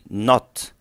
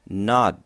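First: The final consonant is a crisp t sound. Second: The final consonant sounds like a soft d. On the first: The speaker calls it wrong. "Don't say not" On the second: The speaker calls it right. "but say nod"

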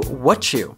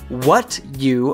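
First: The two words are reduced and linked together. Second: The two words are said separately and fully.

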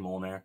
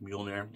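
First: The word starts with a plain 'mol' sound. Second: The word starts with a 'myol' sound. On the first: This is a personal way of saying the name. "I say Molnair" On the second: This is how the name is usually pronounced. "it's like more pronounced like Mjolnir"

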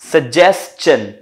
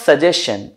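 First: The ending is pronounced with an 's' then 'chun'. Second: The ending is pronounced with a plain 'shun' sound. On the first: The speaker calls it right. "This is सजेस्चन" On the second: The speaker calls it wrong. "This is not सजेशन"

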